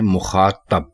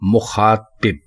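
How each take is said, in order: First: The last vowel is a short 'a'. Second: The last vowel is a short 'i'. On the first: The speaker calls it wrong. "जो कि गलत है" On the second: The speaker calls it right. "ये बिल्कुल दुरुस्त है"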